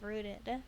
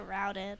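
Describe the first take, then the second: First: The vowel sounds like the one in 'boot'. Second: The vowel sounds like the one in 'out'. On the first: The speaker calls it right. "it's pronounced rooted" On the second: The speaker calls it wrong. "I keep pronouncing it routed"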